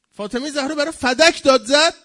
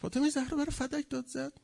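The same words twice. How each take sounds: First: Loud, high cry of protest; impassioned shout. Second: Soft but high-pitched, pained; hushed repeat. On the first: Cries out the point, then repeats softly. (با فریاد و صدای بلند) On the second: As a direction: let it sink in softly, voice held high. Repeats the shouted line softly. (آهسته با صدای زیر) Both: Real, not acted.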